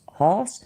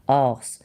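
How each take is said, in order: First: The word begins with an h sound. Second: The word begins with a vowel sound. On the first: The speaker calls it wrong. "I literally just added a hate to horse" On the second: The speaker calls it right. "I said it right"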